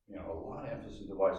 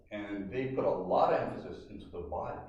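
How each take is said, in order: First: Quick aside repeat. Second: Said in the usual way. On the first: Shown as a demonstration. Rushed softer repeat.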